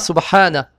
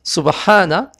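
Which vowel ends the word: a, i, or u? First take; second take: a; a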